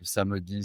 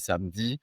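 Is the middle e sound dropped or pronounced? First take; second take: pronounced; dropped. First: The middle e vowel is clearly pronounced. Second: The middle e vowel is left out. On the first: "avec le e" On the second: "sans le e"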